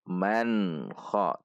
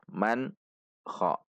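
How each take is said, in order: First: The n joins smoothly into kha. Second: The n is cut off apart from kha. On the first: The speaker calls it right. "Namun man kha" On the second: The speaker calls it wrong. "Tidak juga terpisah man kha"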